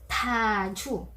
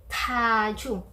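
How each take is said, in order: No difference in how they are said.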